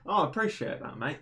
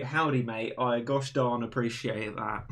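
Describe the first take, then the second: First: Said in the usual way. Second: Lightly put-on American accent, cowboy flavour; mock American accent. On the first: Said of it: "Or should I say". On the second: Shown as a demonstration. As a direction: play a folksy American, mildly. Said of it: "I like the American accent".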